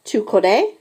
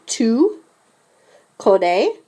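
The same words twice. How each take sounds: First: Said in the usual way. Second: Tu, a pause, then connais rising; split for repetition. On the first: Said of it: "répétez". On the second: Shown as a demonstration. Teacher has the class repeat Tu connais in parts. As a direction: break Tu connais into two slow pieces. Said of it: "s'il vous plaît, répétez".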